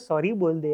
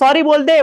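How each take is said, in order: First: It is said gently and sweetly. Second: It is said loudly and forcefully. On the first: A polite request. "Sweetly बात करते" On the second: A threatening demand. "Level up होता जाता है"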